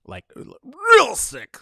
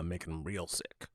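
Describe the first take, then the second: First: "real" stretched out long and pitched high; stress on REAL. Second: Said in the usual way. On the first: Real, not acted. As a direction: repeat it emphatically, leaning hard on "real". Repeats the phrase for emphasis.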